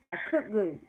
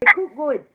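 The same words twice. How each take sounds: First: Said in the usual way. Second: Louder put-on Jamaican "cook good"; mock Jamaican accent. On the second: Co-host repeating what she just said, loud mock Jamaican accent. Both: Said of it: "What I just said?".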